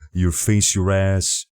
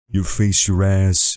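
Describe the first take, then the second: First: The voice has moderate, balanced bass. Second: The voice has heavy, excessive bass. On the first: The speaker calls it right. "There is just enough" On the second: The speaker calls it wrong. "It was too much"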